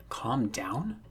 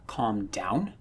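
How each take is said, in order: First: A voiceless whisper, questioning upward; incredulous whisper. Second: Said in the usual way. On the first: Acted. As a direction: breathe it out in disbelief. Voiceless, furious, hurt boy.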